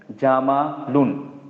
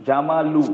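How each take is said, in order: First: Slow "jama-lun", closed with n; "jamalun" ending in "un". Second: "lu" left open, no n; "jamalu" ending in open "u". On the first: Teacher shows added pesh, "jamalun" slowly ending in "un". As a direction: draw out "jamalun" and land on the n. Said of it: "तो उन हो जाएगा". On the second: Teacher shows single pesh, "jamalu" ending in open "u". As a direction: say "jama-lu", ending on the vowel. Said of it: "तो उ". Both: Shown as a demonstration.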